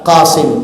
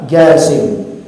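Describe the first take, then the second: First: The name starts with a deep throat q sound. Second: The name starts with a hard g sound. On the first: This is the original form of the name. "Jasim itu aslinya adalah Qasim" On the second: This is the Yemeni dialect form of the name. "Jasim itu adalah dialek orang Yaman. Jadi orang Yaman kalau baca qaf itu ga"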